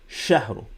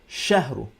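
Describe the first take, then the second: Both takes have the same delivery.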